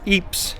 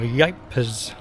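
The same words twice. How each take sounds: First: The name is said with a local pronunciation. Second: The name is said with an English pronunciation.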